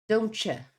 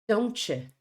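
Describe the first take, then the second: First: The t and y merge into a ch sound. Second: The t and y merge into a ch sound.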